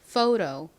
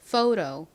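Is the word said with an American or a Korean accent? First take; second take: American; American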